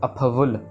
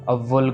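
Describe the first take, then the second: First: The f sound is clearly heard before the v. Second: The f sound is dropped, giving a doubled v. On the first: The speaker calls it right. "So अफवुल" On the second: The speaker calls it wrong. "फवुल फ की आवाज़ ही नहीं आती, तो दो बार वव्वा लग जाता है"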